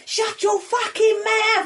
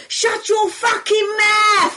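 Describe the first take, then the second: First: Joking shout. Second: Higher, louder, slow yell down from a balcony; drunken shout. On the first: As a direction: replay the joke bellow. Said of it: "like, as a joke". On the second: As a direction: bellow it down at a friend below. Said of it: "So I shouted down to her". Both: Retold or imitated.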